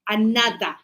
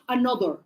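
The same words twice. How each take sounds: First: The vowel is said with the mouth more open. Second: The vowel is said with the mouth less open. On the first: The speaker calls it right. "no, another. Got to open your mouth" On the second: The speaker calls it wrong. "not another"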